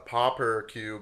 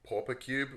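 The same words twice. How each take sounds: First: The word is said in a North American accent. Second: The word is said in a non-North American accent. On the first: "as you might actually call it" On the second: "which is the way I pronounce the word"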